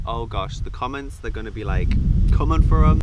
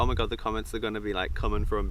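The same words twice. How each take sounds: First: Rising to a loud burst at the end; worried excitement. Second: Said in the usual way. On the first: Retold or imitated. Vlogger fretting over the comments, building loud. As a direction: panic louder and louder about the comments. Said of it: "And I'm like". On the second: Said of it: "I was literally like".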